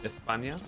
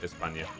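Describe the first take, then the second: First: The S is said with a lisp. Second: The S is said as a plain S. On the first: The speaker calls it wrong. "it's not pronounced España, because we don't pronounce the S with a lisp" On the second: The speaker calls it right. "España is actually still just España"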